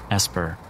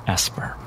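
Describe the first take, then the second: No difference in how they are said.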